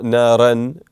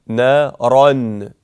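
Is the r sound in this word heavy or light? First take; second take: light; heavy. First: The r sound is light and thin. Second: The r sound is heavy and full. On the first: The speaker calls it wrong. "not نَارًا" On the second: The speaker calls it right. "مفخم حرف الراء"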